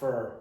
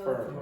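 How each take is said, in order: First: The vowel is reduced, like 'fur'. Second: The vowel is reduced, like 'fur'.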